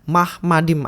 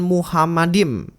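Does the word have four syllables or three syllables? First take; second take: three; four. First: The word is said with three syllables. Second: The word is said with four syllables. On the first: The speaker calls it right. "yang dibaca Mahmadim" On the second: The speaker calls it wrong. "bukan Muhammadim"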